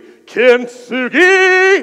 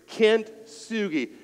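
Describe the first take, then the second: First: The word is said with dramatic, energetic flair. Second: The word is said in a plain, even way. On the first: "Now with drama flair" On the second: "One more time"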